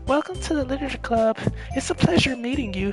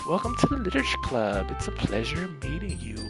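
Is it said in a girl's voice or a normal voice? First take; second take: girl's voice; normal voice. First: It is said in a put-on girl's voice. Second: It is said in his normal protagonist voice.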